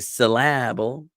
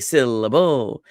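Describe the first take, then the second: First: The stress is on the middle syllable only. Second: The stress is on the first and last syllables. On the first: "with the emphasis on la" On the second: "with the emphasis in the beginning and the end, but not in the middle"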